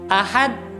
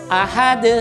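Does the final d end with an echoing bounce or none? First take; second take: none; bounce. First: The final d stops flat with no bounce. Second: The final d ends with an echoing bounce. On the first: The speaker calls it wrong. "Dia meniadakan qalqalahnya" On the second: The speaker calls it right. "maka akan timbul pantulan"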